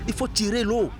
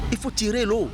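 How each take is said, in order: Both takes have the same delivery.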